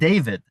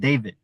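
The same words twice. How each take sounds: First: It ends cleanly on a d sound. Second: It ends with the final d left out. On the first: "instead of saying" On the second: "without the D sound"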